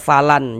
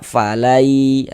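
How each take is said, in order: First: The n is pronounced clearly before the next letter. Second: The n is merged into the following letter, nasalized. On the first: The speaker calls it wrong. "jangan dibaca falan" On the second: The speaker calls it right. "Sehingga kita baca falai"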